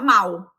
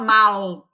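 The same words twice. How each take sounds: First: The word ends in a U-like sound. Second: The word ends in a clear L sound. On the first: This is how Brazilians actually say it. "pronuncia igual o mal com U" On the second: This is the formal pronunciation the machine expects. "ele não fala mal"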